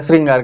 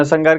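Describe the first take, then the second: First: श्रृंगार with a clear "shr", "sring-gaar"; correct reading. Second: श्रृंगार said as "sangaar", without the r; common misreading. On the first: Teacher giving students the proper word, श्रृंगार said as "sringaar". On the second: Teacher reading a common misspelling to students, श्रृंगार misread as "sangaar". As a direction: drop the r, "san-gaar" for श्रृंगार. Misspelt word read, then the correct one. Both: Shown as a demonstration.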